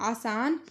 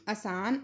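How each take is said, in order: First: आसान with long opening aa; double long vowel. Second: आसान said as asaan, short start; Punjabi short vowel. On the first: Teacher giving the Hindi word, long-vowelled आसान. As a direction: hold both vowels of आसान. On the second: Teacher showing the corrected form, आसान with short start. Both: Shown as a demonstration. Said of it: "तो इसका हो जाएगा".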